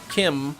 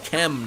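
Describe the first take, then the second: First: The vowel sounds like the one in 'him'. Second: The vowel sounds like the one in 'them'. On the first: The speaker calls it wrong. "not Kim" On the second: The speaker calls it right. "Chem, not Kim"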